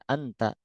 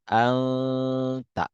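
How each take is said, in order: First: The nasal n is short and not held. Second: The nasal n is held for two counts. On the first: This is ordinary spoken Arabic. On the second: This is the Quran recitation style. "dalam Al-Quran dikatakan anta. Ikhfa, dua harkat"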